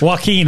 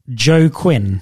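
First: The name begins without a 'Joe' sound. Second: The name begins with a 'Joe' sound. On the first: The speaker calls it right. "Joaquin, I'm on board now" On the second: The speaker calls it wrong. "they called him Joe Quinn"

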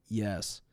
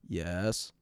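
First: The pitch falls at the end of the word. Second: The pitch rises at the end of the word. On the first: "instead of saying yes" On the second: "There's an up tone to the way that they finish sentences"

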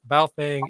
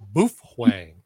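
First: The first syllable rhymes with 'cow'. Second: The first syllable rhymes with 'too'. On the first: The speaker calls it wrong. "it is not pronounced Baofeng" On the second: The speaker calls it right. "It is Boofwang"

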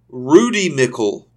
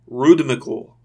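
First: It sounds like two words, Rudy Mickle. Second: It sounds like the single word rhythmical. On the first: "I'm going to pronounce that differently in a minute" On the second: "the way that was intended to be pronounced was like rhythmical"

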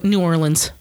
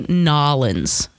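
First: The name is said in full, every syllable. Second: The name is squeezed into two short syllables.

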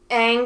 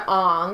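First: The name is said the way the cartoon says it. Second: The name is said the way the movie says it. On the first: This is the original pronunciation. "Aang gets changed to" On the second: This is the changed pronunciation. "gets changed to Aang"

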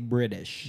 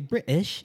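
First: The T is said softly, like a D. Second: The T is said crisply and clearly. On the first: "Americans pronounce their T's as D's. We say British" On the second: "if you want to sound like you're from fucking English, say British"

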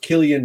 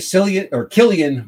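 First: The name begins with a hard K sound. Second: The name begins with a soft S sound. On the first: "but it's pronounced Killian Murphy" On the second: "I always go with the soft C in it"

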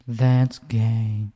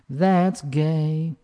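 First: It is said on a round, mellow note. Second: It is said on a bright, twangy note. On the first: "versus a C, which is more mellow and rounded" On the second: "We're using an F sharp, a very twangy note"

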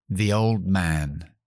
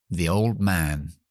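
No difference in how they are said.

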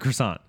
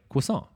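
First: Croissant is said with an American pronunciation. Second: Croissant is said with a French-style pronunciation. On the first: "because I'm a fucking honky" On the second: "You're saying it technically correctly"

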